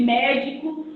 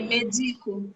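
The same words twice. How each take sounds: First: Médico stressed on MÉ; stress on first syllable. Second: Medico stressed on DI; stress on middle syllable. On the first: Teacher citing a colleague's example, médico stressed on mé. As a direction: lean on the mé of médico. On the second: Teacher giving the verb form, medico stressed on di. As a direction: lean on the di of medico. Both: Shown as a demonstration. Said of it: "É a marcação de sílaba tônica".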